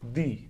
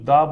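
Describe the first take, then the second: First: The word ends in an 'ee' vowel. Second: The word ends in an 'ah' vowel. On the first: The speaker calls it right. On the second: The speaker calls it wrong. "ये बिल्कुल ही गलत है"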